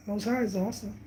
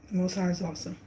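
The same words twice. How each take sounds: The two takes are said the same way.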